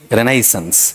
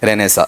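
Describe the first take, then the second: First: The word ends in a full 'sens' syllable. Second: The word ends in a short 'sa' sound. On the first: This is the actual original form. The speaker calls it right. "Actual में जो real है ना वो क्या है" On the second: This is the form in common use. The speaker calls it wrong. "लेकिन वो रेनेसा क्या प्रचलित में आ गया है"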